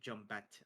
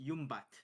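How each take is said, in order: First: The word begins with a J sound. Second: The word begins with a Y sound. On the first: This is how younger people now say it. The speaker calls it wrong. "the young folk, they are losing the accent. Uh, they are now saying Jumbat" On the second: This is the traditional local pronunciation. The speaker calls it right. "it is actually pronounced Yumbat"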